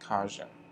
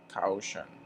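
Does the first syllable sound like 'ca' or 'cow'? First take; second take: ca; cow. First: The first syllable sounds like 'ca'. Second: The first syllable sounds like 'cow'. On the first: The speaker calls it right. "We say caution" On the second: The speaker calls it wrong. "Some people pronounce it caution, but we never say caution"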